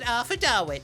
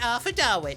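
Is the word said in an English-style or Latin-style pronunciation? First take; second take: Latin-style; Latin-style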